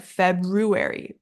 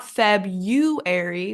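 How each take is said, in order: First: FEBRUARY with the R, "FEB-ROO-airy"; correct FEBRUARY. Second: Slow FEBRUARY with YOU for RU, "FEB-YOO-airy"; wrong FEBRUARY. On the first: Teacher gives the correction, FEBRUARY as FEB-ROO-airy. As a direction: put RU after FEB in FEBRUARY. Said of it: "but February". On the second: Teacher shows what not to say, FEBRUARY as FEB-YOO-airy. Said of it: "Not February". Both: Shown as a demonstration.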